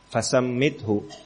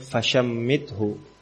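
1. Konsonan setelah 'fa' adalah bunyi 's'. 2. Konsonan setelah 'fa' adalah bunyi 'sh'. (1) "di riwayat lain dengan sin" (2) "dengan shin"

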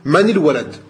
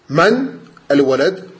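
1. Les mots sont liés par une voyelle de liaison i. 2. Les mots se disent séparément, sans voyelle de liaison. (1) "si jamais tu fais la liaison" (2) "sans liaison"

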